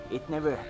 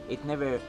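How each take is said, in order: Both takes have the same delivery.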